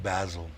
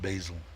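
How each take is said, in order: First: It is said with the British pronunciation. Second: It is said with a non-British pronunciation. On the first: "The Brits call it Basil" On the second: "I call it Basil"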